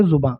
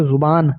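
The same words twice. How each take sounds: First: जुबां ending on a nasal long aa; nasalized ending. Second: जुबान ending on a full n; full final n. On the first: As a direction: drop the n of जुबां into a nasalized vowel. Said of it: "नून गुन्ना है तो इसको पढ़ेंगे". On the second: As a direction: close जुबान with a clearly sounded n. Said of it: "नून गुन्ना नहीं होता तो इसको पढ़ते". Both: Shown as a demonstration.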